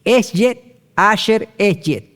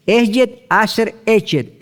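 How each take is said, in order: First: "Eshet Asher Eshet" said slowly, each Hebrew word set apart; Hebrew phrase spelled out. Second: "Eshet Asher Eshet" repeated slowly, each Hebrew word set apart; Hebrew phrase repeated. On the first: Preacher teaching the congregation the Hebrew, slow careful pronunciation. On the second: Preacher repeating the Hebrew for listeners, slow careful pronunciation. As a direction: say "Eshet Asher Eshet" once more, clearly and slowly. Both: Shown as a demonstration.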